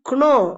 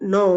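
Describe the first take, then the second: First: The word starts with a k sound. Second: The word starts with an n sound. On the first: The speaker calls it wrong. "அந்த கேவை உச்சரிச்சு நம்ம சொல்லக்கூடாது" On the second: The speaker calls it right. "கேவை அடிச்சுட்டு"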